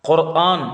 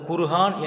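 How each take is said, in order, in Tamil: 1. இரண்டு நடுவில் உள்ள உயிரெழுத்துகளை ஒரு தெளிவான இடைவெளி பிரிக்கிறது. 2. இரண்டு நடுவில் உள்ள உயிரெழுத்துகளை h ஒலி இணைக்கிறது. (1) "குர்ஆன் என்று தான் உச்சரிக்கணும்" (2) "உச்சரிப்பது தவறு"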